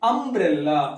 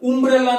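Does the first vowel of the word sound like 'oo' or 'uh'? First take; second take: uh; oo. First: The word begins with an 'uh' vowel. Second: The word begins with an 'oo' vowel. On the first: The speaker calls it right. "ಅಂಬ್ರೆಲ್ಲಾ ಅ sound ಬರುತ್ತೆ" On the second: The speaker calls it wrong. "ನೀವೆಲ್ಲ ಉಂಬ್ರೆಲ್ಲಾ ಅಂತ ಹೇಳ್ತೀರಾ ಇಲ್ಲ ತಾನೆ"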